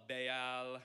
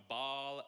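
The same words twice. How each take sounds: First: Baal in two syllables, "bay-al"; pronounced "bay-al". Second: Baal said as one syllable, like "ball"; pronounced "ball". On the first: Preacher offering another way to say the name, Baal as "bay-al". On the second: Preacher offering one way to say the name, Baal as "ball". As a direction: say Baal to rhyme with "hall". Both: Shown as a demonstration. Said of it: "I've heard it pronounced".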